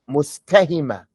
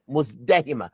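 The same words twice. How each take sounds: First: The consonant after the z is a t. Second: The consonant after the z is a d. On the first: The speaker calls it wrong. "You can't say mustahima" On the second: The speaker calls it right. "So they make it a dal"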